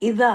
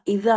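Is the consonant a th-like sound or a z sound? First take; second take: th; th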